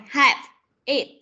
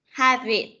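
First: "have" and "it" said apart, with a break between; separate words. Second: "Have it" as one unit, V flowing into "it"; linked V sound. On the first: Teacher breaking down the link for pupils, "have", pause, "it". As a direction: split "have" from "it", each word on its own. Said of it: "Chúng ta sẽ nối từ âm". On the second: Teacher showing pupils the link, "Have it" without a break. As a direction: join the V of "Have" onto "it". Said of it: "cái chữ V này này và E". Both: Shown as a demonstration.

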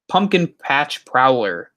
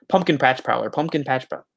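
First: Said in the usual way. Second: Rapid-fire repeats of the name; tongue twister, fast. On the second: Shown as a demonstration. Streamer testing a tongue twister for viewers, said fast. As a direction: rattle it off twice as fast. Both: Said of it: "Say that ten times fast".

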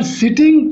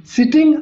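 First: Said in the usual way. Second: Sitting, said high with a rising tune; stressed word. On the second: Shown as a demonstration. Teacher repeats sitting high and rising. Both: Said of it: "exceptional case है".

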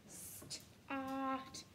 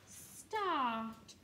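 First: "start" said softer, slowly. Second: Said in the usual way. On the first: Shown as a demonstration. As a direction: say "start" quietly, drawing out the sound. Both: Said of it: "What sound can you hear at the beginning?".

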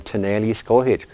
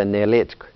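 First: Tuneli Skohitsk said in full; long Cherokee form. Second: Nelitsk said clipped, no final vowel; short Cherokee form. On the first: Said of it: "Instead of saying". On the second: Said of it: "another way of saying it". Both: Shown as a demonstration.

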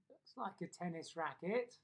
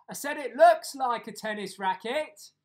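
First: Said in the usual way. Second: Very loud, raised-pitch repetition; booming, insistent "I said"; loud repeat. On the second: Acted. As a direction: shout it for someone hard of hearing. Repeats it for deaf Granny, loudly.

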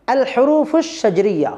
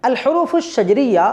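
Both takes have the same delivery.

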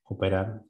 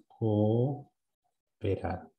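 First: Said in the usual way. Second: "Cooperar" muy lento, alargando co y con pausa antes del resto; sílabas separadas. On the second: Shown as a demonstration. ("Cooperar" lentísimo, dividido en sílabas) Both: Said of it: "tenía que separarlo".

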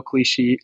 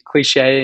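First: Cliche said as "klee-shee"; mispronounced cliche. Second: Cliche said as "klee-shay"; corrected cliche. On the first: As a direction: slip on cliche, ending it in "shee" instead of "shay". Slip, corrected on the next word. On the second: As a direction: say cliche with a clear "shay" ending. Corrects the slip just made. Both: Real, not acted.

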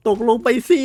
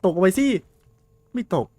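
First: Much higher, much louder yell of ตกลงไปสิ; desperate yell. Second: Higher, louder urging call; urging shout. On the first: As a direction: scream ตกลงไปสิ at the monster with everything. Urging monster into the pit again. (ตะโกนสุดเสียง) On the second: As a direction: shout it down the pit at the monster. Urging monster into the pit. (ตะโกนเร่งเสียงสูง) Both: Real, not acted.

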